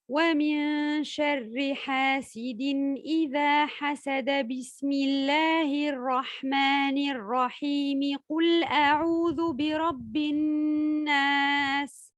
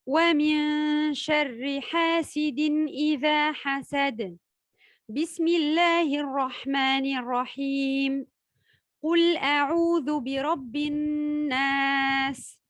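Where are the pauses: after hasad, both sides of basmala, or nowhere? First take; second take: nowhere; both sides. First: It runs on without any pause at all. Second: It pauses before and after the basmala. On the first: "Fin de sourate, ensuite basmala, ensuite le début d'une sourate" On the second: "lire la fin de la sourate et s'arrêter, ensuite lire la basmala, puis marquer à nouveau un temps d'arrêt"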